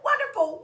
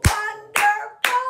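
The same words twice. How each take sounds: First: Said in the usual way. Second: Wonderful very loud, high and slow, syllable by syllable; stretched, high chant of Wonderful; clapped syllables. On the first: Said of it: "some three-syllable words". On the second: Shown as a demonstration. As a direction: belt each syllable of Wonderful on its own beat. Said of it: "Clap it".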